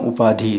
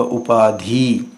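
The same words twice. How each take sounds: First: "उपाधि" ending in a short i; correct short vowel. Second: "उपाधि" ending in a long ee; wrong long vowel. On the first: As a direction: keep the final i of "उपाधि" short. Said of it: "तो फिर यही सही है". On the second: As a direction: stretch the end of "उपाधि" to upaadhee. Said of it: "बड़ी की मात्रा लग गई है". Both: Shown as a demonstration.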